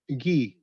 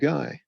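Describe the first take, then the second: First: It is pronounced the French way, like 'ghee'. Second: It is pronounced the English way, rhyming with 'sky'. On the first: It is a personal name. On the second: It is the ordinary word for a man.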